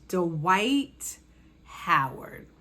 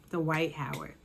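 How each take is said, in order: First: Dramatic reveal. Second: Said in the usual way. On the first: Real, not acted.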